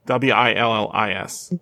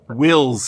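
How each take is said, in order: First: The name is said as two syllables. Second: The name is said as one syllable. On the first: The speaker calls it right. "Willis, like Bruce Willis" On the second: The speaker calls it wrong. "Wills is wrong"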